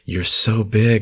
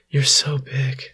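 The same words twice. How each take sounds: First: It is said in the reader's normal voice. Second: It is said in a put-on girlish voice.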